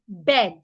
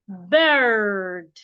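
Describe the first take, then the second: First: The vowel is short, like in bed. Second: The vowel is long with the r sounded. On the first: "a Nigerian will say bed. Bed is wrong" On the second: "an American person will say bird"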